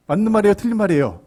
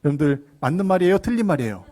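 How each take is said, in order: First: Louder, higher, pressing repeat; insistent question. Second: Said in the usual way. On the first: Real, not acted. Preacher asking congregation right or wrong, insistently. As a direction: push the listeners hard for an answer.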